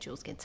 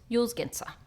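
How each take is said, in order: First: The first word begins with a J sound. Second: The first word begins with a Y sound. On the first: "I'll just say Jules Genser" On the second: "Yule's definitely a Y"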